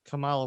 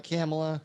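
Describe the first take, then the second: First: Kamala said as "kuh-MAH-luh"; stress on second syllable. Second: Kamala said as "KAM-uh-luh"; stress on first syllable. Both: Shown as a demonstration. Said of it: "Or is it Kamala?".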